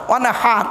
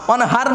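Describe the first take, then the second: First: "ওয়ানহার" with h from inside the throat; correct throaty h. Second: "ওয়ানহার" with a plain everyday Bengali h; mistaken light h. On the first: Preacher correcting the congregation's word, throaty h. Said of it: "গলার ভেতর থেকে হে এটা উচ্চারণ করবে". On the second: Preacher showing what not to say, plain light h. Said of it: "ওয়ানহার নয়". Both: Shown as a demonstration.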